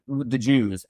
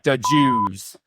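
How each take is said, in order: First: It is said in a plain, neutral tone. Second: It is said in a hostile, contemptuous tone. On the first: The speaker means no insult. The speaker calls it right. "it's completely fine" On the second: The speaker means it as an insult. The speaker calls it wrong. "you can say it like offensively"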